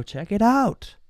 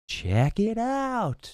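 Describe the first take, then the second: First: High, eager salesman voice, pushing the car; salesman pitch. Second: High and very slow, savouring the words; drawn-out salesman pitch. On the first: Car dealer showing off the car to the buyer, high and eager. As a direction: sell it like a pushy dealer. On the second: Car dealer tempting the buyer at the car, high and slow. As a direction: stretch it out like a dealer teasing a sale. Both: Retold or imitated. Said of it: "and go".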